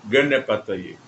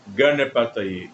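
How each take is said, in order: No difference in how they are said.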